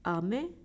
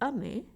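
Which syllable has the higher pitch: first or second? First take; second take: second; first. First: The pitch is higher on the second syllable. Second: The pitch is higher on the first syllable. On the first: "If you say me higher like ame, it means candy or lollipop" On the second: "a is higher than me, and then me is lower"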